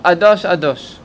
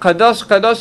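First: The word begins with a glottal stop. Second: The word begins with a clear k sound. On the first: The speaker calls it wrong. "אומרים אדוש אדוש. זה לגמרי הגזים" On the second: The speaker calls it right. "במקום לומר קדוש קדוש"

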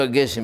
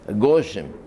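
First: The vowel after the g is e. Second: The vowel after the g is o. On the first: "הגשם בסיגון" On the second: "האשכנזים מבטאים הגשם בחמאס"

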